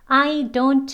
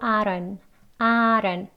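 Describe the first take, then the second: First: The d is a full, hard d sound. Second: The d is a light flap, like an l. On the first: The speaker calls it wrong. "I don't가 아니고" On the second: The speaker calls it right. "flap D 또 있지요"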